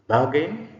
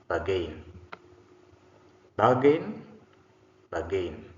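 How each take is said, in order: First: BARgain, high and loud with a rising end; stress on first syllable. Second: BarGAIN, weight on the last syllable, falling; stress on second syllable. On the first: Teacher models the noun for the class, first-syllable stress on "Bargain". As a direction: say "Bargain" hitting "bar" hard. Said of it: "first syllable stressed gives us a noun". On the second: Teacher models the verb for the class, second-syllable stress on "bargain". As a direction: say "bargain" hitting "gain". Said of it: "second syllable stressed gives us a verb". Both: Shown as a demonstration.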